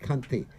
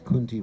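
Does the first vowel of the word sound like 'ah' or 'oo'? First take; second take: ah; oo. First: The first vowel sounds like 'ah'. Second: The first vowel sounds like 'oo'. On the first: The speaker calls it right. "it's kanti, which means the neck" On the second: The speaker calls it wrong. "everyone would pronounce it as kunti mala"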